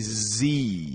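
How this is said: The letter is said as zee. This is the American way. "in American English, we say Z"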